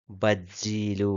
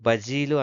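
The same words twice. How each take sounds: First: బజ్జీలు slowly, with a held double జ్జ; ఒత్తి చదవడం. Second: బజీలు with a short single జ; ఒత్తు లేకుండా. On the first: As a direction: press and stretch the జ్జీ in బజ్జీలు. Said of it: "బజ్జీలు అని చదవాలి". (బజ్జీలులో జ్జను నెమ్మదిగా ఒత్తి పలకడం) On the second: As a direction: say బజీలు lightly, no doubled జ. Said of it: "ముందేమో బజీలు అన్నాము". (బజీలులో జను ఒత్తకుండా పలకడం) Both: Shown as a demonstration.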